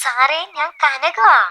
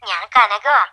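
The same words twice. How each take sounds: First: Slow, high coaxing on the phone; slow, higher-pitched phone caller; drawn-out reintroduction. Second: Simple introduction down the phone line; phone-filtered self-introduction; phone caller. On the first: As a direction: stretch the name out for him, pitched up. Repeats name, not recognised. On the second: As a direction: give your name as a caller on the phone. Caller first gives her name. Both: Acted.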